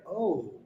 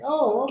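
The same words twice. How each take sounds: First: The word is said expressively, with lively pitch. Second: The word is said flat, with little pitch movement. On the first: The speaker calls it right. "it's like" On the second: The speaker calls it wrong. "instead of it being like"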